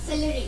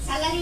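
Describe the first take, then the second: First: The first vowel sounds like 'e' in bed. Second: The first vowel sounds like 'a' in cat. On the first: The speaker calls it right. "সেলেরি is a vegetable" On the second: The speaker calls it wrong. "স্যালারি না"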